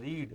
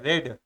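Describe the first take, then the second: First: The vowel is long, as in 'seed'. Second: The vowel is short, as in 'bed'. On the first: It is the present form of the verb. "इसको अगर हम रीड पढ़ेंगे, रीड, तो ये verb का first form है" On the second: It is the past participle form of the verb. "Been के बाद जब भी रीड आएगा, इसको रेड पढ़ते हैं"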